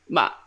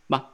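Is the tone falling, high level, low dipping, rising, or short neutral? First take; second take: falling; short neutral. First: The pitch falls sharply, sounding angry. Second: It is a very short, light burst. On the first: "like the angry tone, I call it" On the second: "the fifth tone is just ma, just short burst like that"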